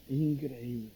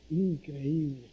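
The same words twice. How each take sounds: The two takes are said the same way.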